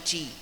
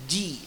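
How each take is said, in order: First: The first consonant is voiceless, like ch. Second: The first consonant is voiced, like j. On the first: The speaker calls it wrong. "bukan ci" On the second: The speaker calls it right. "huruf jim punya sifat jahar"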